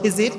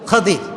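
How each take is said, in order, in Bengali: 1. প্রথম স্বরধ্বনিটি 'i'-এর মতো শোনায়। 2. প্রথম স্বরধ্বনিটি 'a'-এর মতো শোনায়। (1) "আমরা বলি খিজির" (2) "উচ্চারণটা আসলে কি?"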